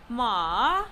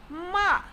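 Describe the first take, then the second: First: "ma" dips low and climbs back; falling-rising tone. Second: "ma" high and falling sharply. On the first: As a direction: draw "ma" down, then up. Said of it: "said in a falling rising tone". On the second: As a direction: say "ma" like a command. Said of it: "intonation with commands such as stop". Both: Shown as a demonstration.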